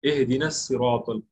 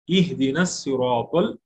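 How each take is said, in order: First: The first vowel is an open 'e' sound. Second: The first vowel is a short 'i' sound. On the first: The speaker calls it wrong. "अक्सर लोग एहदीनस बोलते, गलत है" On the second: The speaker calls it right. "बल्कि अलीफ पे जेर होता है"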